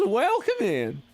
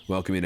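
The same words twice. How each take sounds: First: High-pitched welcome in a put-on Wild West accent. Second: Said in the usual way. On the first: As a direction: greet them like a hollering Wild West local. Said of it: "This is just the accent I'm doing". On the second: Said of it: "This is my normal accent".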